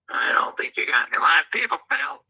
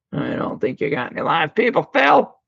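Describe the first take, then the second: First: Soft whispered aside; a hushed whisper. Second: Said in the usual way. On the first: Shown as a demonstration. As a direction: whisper it so no one hears. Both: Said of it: "whisper take".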